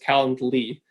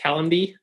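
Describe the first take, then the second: First: An L sound comes before the ending. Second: There is no L sound before the ending. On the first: The speaker calls it right. "but it's Calendly with an L Y at the end" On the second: The speaker calls it wrong. "Everyone wants to pronounce it Calendy"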